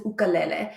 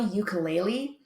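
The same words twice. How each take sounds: First: "ukulele" said oo-kuh-LEH-leh; "ukulele" the original way, oo-kuh-leh-leh; original pronunciation. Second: "ukulele" said YOO-kuh-LAY-lee; mispronounced "ukulele" as you-kuh-LAY-lee; Americanized pronunciation. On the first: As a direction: open "ukulele" with "oo", end on "leh". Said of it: "it is an ukulele". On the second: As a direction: open "ukulele" with a "you" sound, end on "lee". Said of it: "it is not a ukulele". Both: Shown as a demonstration.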